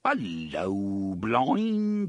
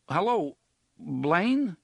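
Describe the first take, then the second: First: Put-on bogus British accent. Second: Raised, higher call into a speaker, unsure anyone answers; nervous calling out. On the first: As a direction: bellow it in a hammed-up posh British accent. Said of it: "adopting a plummy and completely bogus British accent". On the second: Acted. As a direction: call out tentatively, voice lifted and tense.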